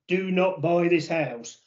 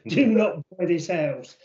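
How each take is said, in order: First: It is said in the speaker's own accent. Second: It is said with a French accent.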